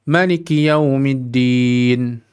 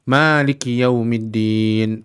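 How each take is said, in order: First: The first vowel of Maliki is kept short. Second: The first vowel of Maliki is held long. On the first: God is the king of the Day of Judgment. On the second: God is the owner of the Day of Judgment.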